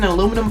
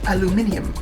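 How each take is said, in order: First: It is said the American way. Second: It is said the non-American way.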